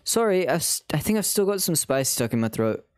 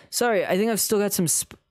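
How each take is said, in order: First: Apologetic line redone in British; British accent. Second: Said in the usual way. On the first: Shown as a demonstration. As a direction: catch the accent back up. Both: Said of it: "wait, he's British".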